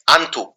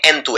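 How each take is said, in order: First: आंथू said with an open "aan" vowel at the start; wrong pronunciation. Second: एंथू said with a short "e" vowel at the start; correct pronunciation. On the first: Teacher showing students the wrong आंथू sound. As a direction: say आंथू with a broad "aa" like a common mistake. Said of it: "तो आंथू नहीं है". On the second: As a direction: say एंथू with a clear "en" sound. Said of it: "एंथू है". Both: Shown as a demonstration.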